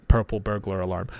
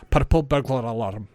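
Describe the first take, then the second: First: Said in the usual way. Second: "Purple burglar alarm" with the R's tapped. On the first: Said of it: "very difficult to pronounce". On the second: Shown as a demonstration. Teacher shows a difficult phrase, tongue-twisting tapped R in "Purple burglar alarm". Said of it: "doing that with your R".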